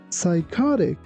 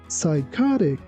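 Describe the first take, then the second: Both takes have the same delivery.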